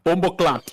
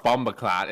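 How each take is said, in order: First: Jamaican accent. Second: Bombaclot said flat and plain; plain American Bombaclot; wrong way. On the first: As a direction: say Bombaclot like a Jamaican. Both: Shown as a demonstration. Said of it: "you gotta say it with the right accent".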